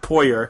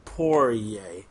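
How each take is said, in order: First: The name is pronounced the way it is spelled. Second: The name sounds like 'pour' followed by 'yay'. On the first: The speaker calls it wrong. "pronounced it phonetically like that" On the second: The speaker calls it right. "you pour a beer and then go yay"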